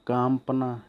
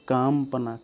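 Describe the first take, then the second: The two takes are said the same way.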